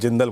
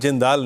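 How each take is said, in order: First: The second syllable has a short vowel. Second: The second syllable has a long vowel. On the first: This is how it was said today. "आज जिंदल बोला है ना" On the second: This is how it is usually said. "आज जिंदाल नहीं"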